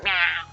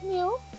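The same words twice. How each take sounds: First: It is a harsh, barking, goat-like meow. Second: It is a sweet, quiet, soft meow.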